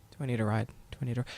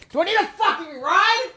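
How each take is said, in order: First: Low, quiet disbelief; seething, held back. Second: Very high, strained outburst of fury; outraged squeal. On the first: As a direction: echo it low and soft, holding the anger in. Seething repeat of the taunt. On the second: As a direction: explode into a high-pitched screech of disbelief. Explodes at the taunt. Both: Retold or imitated.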